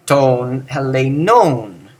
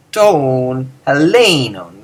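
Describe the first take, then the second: First: Helenon with the usual stress; the stress most would expect on helenon; plain take of helenon; wrong accent. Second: Helenon slow, stress moved; slow drawn-out helenon with shifted accent; correct accent. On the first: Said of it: "That makes no sense". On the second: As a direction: stress helenon the Greek way, slowly. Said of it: "instead of". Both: Shown as a demonstration.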